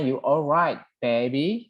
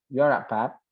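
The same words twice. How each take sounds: First: Said in the usual way. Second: Lightly imitated Midlands accent; Brummie accent. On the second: Shown as a demonstration. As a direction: run the words together, Brummie-style. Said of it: "ada ini di Midland, Broomy". (logat Midlands Inggris tiruan)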